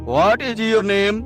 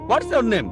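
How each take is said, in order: First: Both words 'what is' are said in full. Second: 'What is' is contracted into 'what's'. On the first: It sounds like non-native English. The speaker calls it wrong. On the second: It sounds like how a native English speaker says it. The speaker calls it right.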